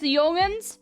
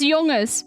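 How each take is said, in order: First: The n before the final s is pronounced. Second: The n before the final s is dropped. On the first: The speaker calls it wrong. "This N right here, it's you think it's Jungens?" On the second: The speaker calls it right. "We just don't pronounce the N at the end"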